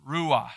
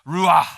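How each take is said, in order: First: Plain teaching take of ruah; pronounced ruah. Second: Ruah barked much louder, falling hard; gruff attitude. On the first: Pastor teaching the congregation the Hebrew word, plain. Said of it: "is pronounced ruah". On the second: Pastor showing how to say it with attitude, loud gruff Ruah. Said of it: "if you wanna have some attitude or some gruffness". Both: Shown as a demonstration.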